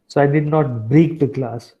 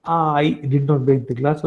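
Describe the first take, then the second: First: "break" punched as the key word; stress on BREAK. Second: "not" lifted with a rising tune; stress on NOT. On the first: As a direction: hit the word "break", keep the rest level. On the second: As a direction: lean hard on "not", let it rise. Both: Shown as a demonstration. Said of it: "if you want to emphasis on particular part".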